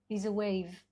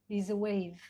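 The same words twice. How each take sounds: The two takes are said the same way.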